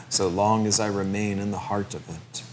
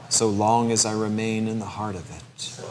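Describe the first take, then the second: Both takes have the same delivery.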